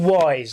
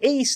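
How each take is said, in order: First: The word does not rhyme with fleece. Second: The word rhymes with fleece.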